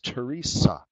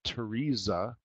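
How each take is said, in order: First: The third consonant is a hissing s sound. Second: The third consonant is a buzzing z sound. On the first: The speaker calls it right. "It's Teresa. Sa" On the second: The speaker calls it wrong. "it's not Teresa ... Not za"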